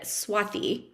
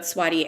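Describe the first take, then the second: First: The t is followed by an h sound. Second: The t has no h sound after it. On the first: "the authentic way of saying it, there should be an H after the T" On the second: "I respond to both"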